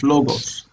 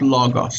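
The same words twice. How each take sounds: First: The first vowel is a pure oh sound. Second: The first vowel is an open ah sound. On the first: The speaker calls it right. "it's logos" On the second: The speaker calls it wrong. "pronounces omicron as ah"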